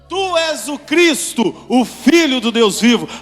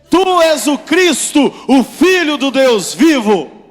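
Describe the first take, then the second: First: It is said with ordinary force. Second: It is said with strong force.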